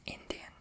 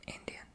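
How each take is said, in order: Both takes have the same delivery.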